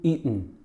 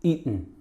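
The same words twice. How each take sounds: No difference in how they are said.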